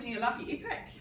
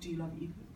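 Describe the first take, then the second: First: It is said in an excited, happy tone. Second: It is said in a flat, unexcited tone.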